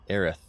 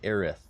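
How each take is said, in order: First: The name ends with a lisped th sound. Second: The same.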